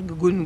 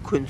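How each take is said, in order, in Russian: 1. Слово начинается со звонкого согласного. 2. Слово начинается с глухого согласного. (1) "Со звонкой согласны. Они, и они вот гунь будут говорить" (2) "а мы кунь скажем"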